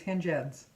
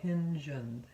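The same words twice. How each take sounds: First: The word is said quickly. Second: The word is said slowly. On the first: The speaker calls it wrong. "if I say it fast" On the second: The speaker calls it right. "if it's slow"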